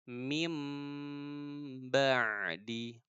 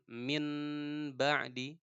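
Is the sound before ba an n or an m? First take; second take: m; n. First: An m sound comes before the b. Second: An n sound comes before the b. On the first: The speaker calls it right. "tapi jadi mim" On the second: The speaker calls it wrong. "jangan min ba'di ya"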